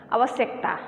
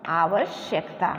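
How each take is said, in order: First: आवश्यकता said the common careless way; quick everyday आवश्यकता; wrong pronunciation. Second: आवश्यकता with clear श, lower; correct pronunciation. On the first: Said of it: "जिसका उच्चारण हम करते हैं". (आवश्यकता का आम गलत उच्चारण) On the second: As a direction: say आवश्यकता carefully, correct form. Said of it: "इसका शुद्ध रूप क्या होगा". (आवश्यकता का शुद्ध उच्चारण) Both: Shown as a demonstration.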